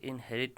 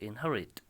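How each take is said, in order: First: The stress is on the first syllable. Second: The stress is on the second syllable. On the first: The speaker calls it wrong. "इसे inherit नहीं पढ़िए" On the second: The speaker calls it right. "यहाँ पर आप देखिए ह जो है वहाँ पे स्ट्रेस है"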